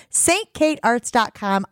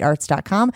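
First: "Saint kate arts dot com" said slowly, each word spaced; slow emphatic URL. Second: Said in the usual way. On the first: Shown as a demonstration.

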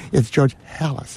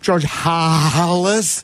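First: "Halas" said as "HAL-us", a short flat a as in hat; plain "It's George Halas" with "Halas" rhyming with Dallas; correct Halas. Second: "Halas" said slow and drawn out as "HAH-lis", with an open ah; slow "George Halas" with "Halas" as "HAH-lis"; odd Halas pronunciation. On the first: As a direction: set the guy right: "George Halas" as "HAL-us". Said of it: "here's an idea". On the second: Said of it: "a guy in Chicago saying". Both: Retold or imitated.

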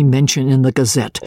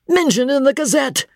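First: Said in the usual way. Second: High-pitched incredulous repeat; much higher, scornful questioning; indignant echo. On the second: A narrator's reading. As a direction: throw the words back in disbelief. Angry George echoes it back scornfully.

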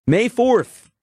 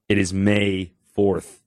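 First: "May fourth" cried out high and loud; exclaiming the date for emphasis; emphatic exclaim. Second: Said in the usual way. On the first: Real, not acted. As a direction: hit "fourth" hard and high as a wake-up call. Repeated for emphasis.

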